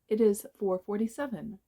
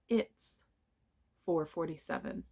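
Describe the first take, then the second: First: It is said as two separate words. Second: It is shortened into one syllable.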